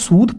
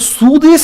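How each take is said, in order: First: The name ends on a consonant sound. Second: The name ends with an extra vowel sound. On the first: The speaker calls it right. "सूदे से हो जाएगा सूद" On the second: The speaker calls it wrong. "ये बिल्कुल भी सूदे नहीं है"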